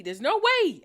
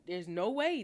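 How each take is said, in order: First: Higher and louder, in disbelief; can't believe it, raise your voice; stunned, pushing the words out high and loud; incredulous. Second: Said in the usual way. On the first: Real, not acted.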